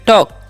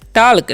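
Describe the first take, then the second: First: The L sound is silent in the word. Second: The L sound is pronounced in the word. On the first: The speaker calls it right. "यहाँ पर एल silent होता है" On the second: The speaker calls it wrong. "टाल्क नहीं"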